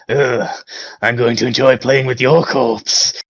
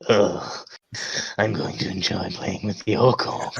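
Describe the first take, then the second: First: It is delivered with little sensual relish. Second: It is delivered with strong sensual, lustful relish.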